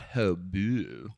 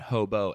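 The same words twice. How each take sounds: First: The word is pronounced with a French-sounding accent. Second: The word is pronounced the plain English way. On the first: "not the French counterpart"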